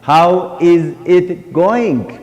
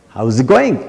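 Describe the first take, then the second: First: Each word is said separately and fully. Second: The words are contracted and run together. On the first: The speaker calls it wrong. "They pronounce it every word at a time" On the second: The speaker calls it right. "Very easy to pronounce"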